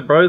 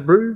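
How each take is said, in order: First: It is said in the speaker's own accent. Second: It is said in an imitated New Zealand accent. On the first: "Like I say bro" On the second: "they say brew"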